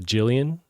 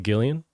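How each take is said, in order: First: The name begins with a soft J sound. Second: The name begins with a hard G sound. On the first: The speaker calls it right. "it's a Jillian, right?" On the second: The speaker calls it wrong. "Even though I want to say Gillian"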